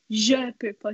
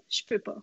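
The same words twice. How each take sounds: First: «je peux pas» with each word said separately, schwa kept in je; careful written-form «je peux pas», every syllable distinct; spelled-out pronunciation. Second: «je peux pas» run together as one word, the je reduced to a bare j; everyday Quebec-style contraction of «je peux pas»; casual spoken form. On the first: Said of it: "je vais pas dire". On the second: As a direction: softly slur «je peux pas» into j'peux pas. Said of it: "je vais dire". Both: Shown as a demonstration.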